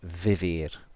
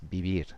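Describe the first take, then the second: First: The word begins with a v sound. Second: The word begins with a b sound. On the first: This is how it is said in Latin America. "most of the rest of the Spanish-speaking world ... you'd probably hear vivir" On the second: This is how it is said in Spain. "but in Spain it's vivir"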